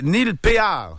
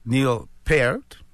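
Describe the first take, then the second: First: The name is said the French way, pay-ar. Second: The name has the vowel of pair. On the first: "ça ferait en français, c'est écrit Péard" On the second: "comme une poire, paire, ou une paire"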